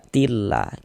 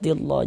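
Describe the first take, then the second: First: The L is pronounced light and thin. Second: The L is pronounced heavy and thick. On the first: The speaker calls it right. "Kita baca tillah, kita baca tipis" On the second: The speaker calls it wrong. "Jangan dibaca tillah"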